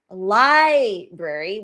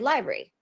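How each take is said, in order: First: Every syllable of the word is pronounced. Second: A sound in the middle is left out. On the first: "instead of saying library" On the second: "we say library"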